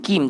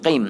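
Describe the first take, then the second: First: "Kim" with a thin k; light k in "Kim"; wrong kim. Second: "Qim" with a back-of-throat q; full qaf in "Qim"; deep qim. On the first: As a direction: say "Kim" from the front, lacking qaf. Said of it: "Kim tak boleh". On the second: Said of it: "dia arak ke dalam". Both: Shown as a demonstration.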